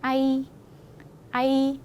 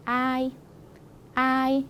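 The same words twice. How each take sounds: First: 아이 with the final 이 drawn out; 아이 weighted on the second vowel; short 아, long 이. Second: 아이 with 아 drawn out and 이 brief; 아이 weighted on the first vowel; long 아, short 이. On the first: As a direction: move quickly off 아 and hold 이 in 아이. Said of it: "뒤에 와이가 기니까". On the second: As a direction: linger on 아, end 아이 on a short 이. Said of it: "얘가 짧다 보니까 앞에 친구가". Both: Shown as a demonstration.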